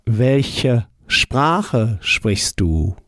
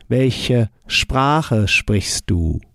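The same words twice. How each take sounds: First: Very slow "Welche Sprache sprichst du?"; deliberately slowed German; slow model answer. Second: Very slow repeat of "Welche Sprache sprichst du?"; careful learner-paced German; slow model answer. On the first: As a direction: lay each word out for the learner. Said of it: "How would you say". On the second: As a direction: model the sentence again slowly. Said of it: "we carry on the same ending". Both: Shown as a demonstration.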